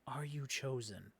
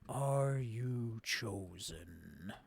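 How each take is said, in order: First: It is said in a plain, normal speaking voice. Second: It is said in a put-on character voice.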